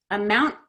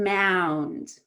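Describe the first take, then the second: First: AMOUNT quick, clipped by the final T; short before T. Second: MOUND stretched out before the D; long before D. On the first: Teacher contrasts final T and D, AMOUNT said short. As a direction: keep the vowel short in AMOUNT. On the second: Teacher contrasts final T and D, MOUND drawn out. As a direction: draw out vowel and N in MOUND. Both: Shown as a demonstration. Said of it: "it's the T and the D at the end".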